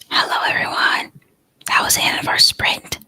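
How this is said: It is whispered quietly.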